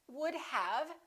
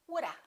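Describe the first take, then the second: First: The word have is said in full. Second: The word have is reduced to a.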